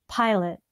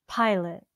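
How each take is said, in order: Both takes have the same delivery.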